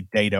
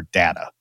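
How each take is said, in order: First: "data" said DAY-tuh; long-a pronunciation. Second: "data" said DAT-uh; short-a pronunciation. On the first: Co-host compares regional pronunciations, "data" said DAY-tuh. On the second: Co-host compares regional pronunciations, "data" said DAT-uh. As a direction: say "data" with the vowel of "cat". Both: Shown as a demonstration. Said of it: "whether you say data or data".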